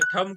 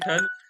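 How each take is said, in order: First: The word ends with an m sound. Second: The word ends with a retroflex n sound. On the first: The speaker calls it wrong. "काही ठम उच्चारण करतात, हे मराठी वगैरेमध्ये ठीक आहे" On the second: The speaker calls it right. "शुद्ध ब लेखनामध्ये ठण-ठण व्हायला पाहिजे"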